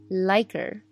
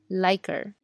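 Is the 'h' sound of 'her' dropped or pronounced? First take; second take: dropped; dropped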